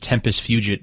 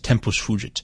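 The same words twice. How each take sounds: First: It is said with an American pronunciation. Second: It is said with a traditional Latin-style pronunciation. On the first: The speaker calls it wrong. "the American pronunciation is" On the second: The speaker calls it right. "I think the proper pronunciation is"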